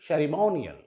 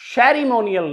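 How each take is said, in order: First: The stress is on the 'mo' syllable. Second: The stress is not on the 'mo' syllable. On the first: The speaker calls it right. "the stress will be on the penultimate syllable" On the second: The speaker calls it wrong. "Ceremonial नहीं"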